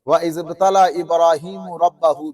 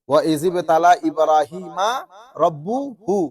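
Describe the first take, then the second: First: Ibrahim ends in 'u'; rabb takes 'a'. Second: Ibrahim ends in 'a'; rabb takes 'u'. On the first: Ibrahim tested God. The speaker calls it wrong. "ইব্রাহিমের মধ্যে পেশ দেন, রবের উপর জবর দেন" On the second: God tested Ibrahim. The speaker calls it right. "আল্লাহ ইব্রাহিম আলাইহিস সালামকে পরীক্ষা করেছেন"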